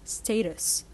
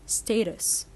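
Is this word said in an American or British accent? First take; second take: British; British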